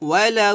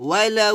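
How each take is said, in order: Both takes have the same delivery.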